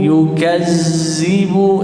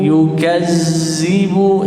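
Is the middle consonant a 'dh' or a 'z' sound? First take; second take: z; z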